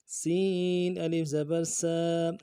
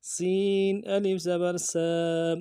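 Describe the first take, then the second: First: سا with a light whistling s; سین thin and whistly; thin whistled sin. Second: سا whistled s then aa held one count; light s, stretch aa in سا; سا with long alif; thin s, long aa. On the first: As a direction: keep the s of سا thin and hissing. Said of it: "سیٹی والا حرف ہے، باریک کرنا ہے". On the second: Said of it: "الف مدہ ایک الف دال میں کھینچنا ہے". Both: Shown as a demonstration.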